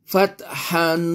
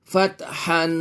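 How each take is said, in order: No difference in how they are said.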